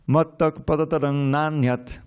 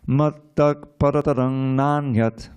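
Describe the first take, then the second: First: It is said at normal speed. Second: It is said a little more slowly.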